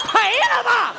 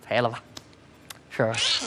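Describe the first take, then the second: First: Loud hawker's cry. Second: Low, soft, feeble mumble of a cry; weak, starved. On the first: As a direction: throw it far down the street. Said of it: "声音大一点". (高亢拉长的吆喝) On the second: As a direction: give it no energy at all. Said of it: "两天没吃饭了是怎么着". (有气无力、又低又轻) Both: Acted.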